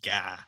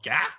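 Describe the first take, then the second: First: The word is said with a lower pitch. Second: The word is said with a higher pitch. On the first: It means chicken. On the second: It means fish.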